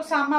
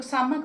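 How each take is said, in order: First: सामा said as "saa-maa" with a long open final a; सामा with no consonant at the end, ending on a long a; saying sama. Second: सामक said as "saa-mak" with a crisp k at the end; सामक ending in a clear k after a short a; saying samak. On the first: To viewers, naming the grain as सामा, clear and even. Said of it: "कुछ लोग सामा बोलते हैं". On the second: To viewers, the other name सामक, with its k sounded. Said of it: "कुछ लोग सामक बोलते हैं". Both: Shown as a demonstration.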